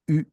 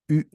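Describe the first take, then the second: No difference in how they are said.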